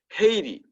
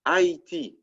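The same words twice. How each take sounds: First: "Haiti" the English way, HAY-tee; English pronunciation. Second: "Haiti" the French way, ah-ee-TEE; French pronunciation. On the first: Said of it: "which is pronounced". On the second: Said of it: "which is pronounced A E T". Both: Shown as a demonstration.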